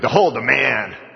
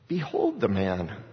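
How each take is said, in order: First: It is said in a hostile, contemptuous tone. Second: It is said in a pleading, sympathetic tone. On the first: The speaker also wants him killed. "they're wanting to kill him. I want to kill him too" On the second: The speaker begs the crowd for mercy. "Please don't make me finalize this by crucifying him"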